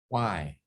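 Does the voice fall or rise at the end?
fall. The pitch falls slightly at the end. It is an invitation to further exploration. The speaker calls it right. "your voice goes slightly down at the end, and you do it with a sincerity and a curiosity and a warmth"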